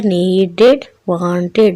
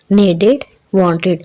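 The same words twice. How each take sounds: First: Needed, wanted drawn out slowly with a distinct "id" ending; stretched "id" ending. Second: Said in the usual way. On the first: Shown as a demonstration. Teacher showing the "id" sound in needed and wanted, drawn out. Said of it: "यानी कि इड की". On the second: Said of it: "यहाँ पर इड की sound आ रही है".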